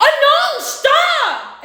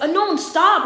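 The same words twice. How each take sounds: First: High, loud panicked scream, retold in full force; piercingly high acted shriek. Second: Restrained retold yell, moderately raised; hint at the scream without letting it rip; mild mock yell, a little high; toned-down scream. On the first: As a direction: scream it like a crash is coming. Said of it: "Let me not scream like that". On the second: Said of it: "I screamed at him".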